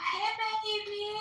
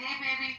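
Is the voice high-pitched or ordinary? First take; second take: high-pitched; ordinary. First: It is said in a high-pitched voice. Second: It is said in an ordinary voice.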